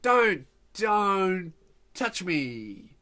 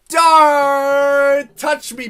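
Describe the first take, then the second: First: Very slow, stretched-out warning; drawn-out warning. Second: High, long-held yell on the first word; loud warning yell. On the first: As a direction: warn them off, dragging out each word. Hates being touched, warns her. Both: Acted.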